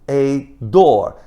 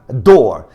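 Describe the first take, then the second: First: It is slow, with the article clearly pronounced. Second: It is fast, with the article nearly swallowed. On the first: "vagarosamente, daí sim o artigo aparece" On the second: "na velocidade normal"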